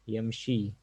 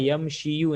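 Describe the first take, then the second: First: The word ends without any final u vowel. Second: The word ends with an added final u vowel. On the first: The speaker calls it right. "बल्कि क्या, मशा यमशी" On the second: The speaker calls it wrong. "उस तरीके से मशा या यमशीयू नहीं"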